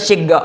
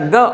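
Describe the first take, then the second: First: The first vowel is an 'i' sound. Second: The first vowel is an 'a' sound. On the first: "boleh bil kasr" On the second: "Boleh bil fathah"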